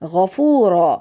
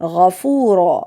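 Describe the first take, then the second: The two takes are said the same way.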